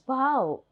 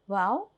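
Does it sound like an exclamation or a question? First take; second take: exclamation; question. First: It is said as a strong exclamation. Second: It is said as a question.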